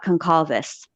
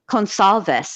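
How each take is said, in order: First: The middle C is hard, like a k. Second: The middle C is soft, like an s. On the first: The speaker calls it wrong. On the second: The speaker calls it right. "A soft C"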